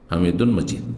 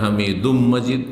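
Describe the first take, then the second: First: The first word ends in a clear n sound. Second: The first word ends in a merged m sound. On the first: This is the plain form without assimilation. "আর আসলে" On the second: The recitation assimilation rule is applied. "কেউ যদি এরকম পড়ে তো জায়েজ"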